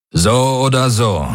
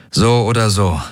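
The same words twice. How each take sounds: First: Höher und fester, bestimmt; entschlossen. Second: Gedrückt und schwer; resigniert, mit Gewicht; schwere Stimme. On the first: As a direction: mit Nachdruck wiederholen. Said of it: "wiederholte Daraios entschlossen". (Daraios wiederholt Garlands Worte, entschlossen) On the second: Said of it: "sagte Garland mit schwerer Stimme". (Garland mit schwerer Stimme zu Daraios, gedrückt) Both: Acted.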